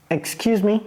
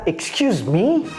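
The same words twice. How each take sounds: First: It is said in a friendly, polite tone. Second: It is said in an aggressive, indignant tone. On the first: The speaker politely asks for a repetition. The speaker calls it right. "il faut dire ça avec un ton aimable" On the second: The speaker is offended by the other person's nerve. The speaker calls it wrong. "vous avez le culot de faire ça"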